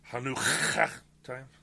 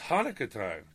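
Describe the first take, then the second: First: Hanukkah starts with a harsh, throaty rasping sound. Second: Hanukkah starts with a plain English H sound.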